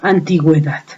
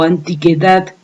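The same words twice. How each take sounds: First: The u after the g is pronounced. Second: The u after the g is silent. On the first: The word is written with the diaeresis. "ya le damos sonido a la U y podemos pronunciar pingüino o antigüedad" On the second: The word is written without the diaeresis. "Si no la escribimos, sonaría pinguino o antigüedad"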